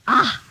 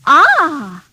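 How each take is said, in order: First: It sounds disgusted. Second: It sounds pleased.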